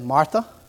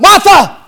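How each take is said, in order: First: The name is said calmly and softly. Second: The name is said loudly and emphatically.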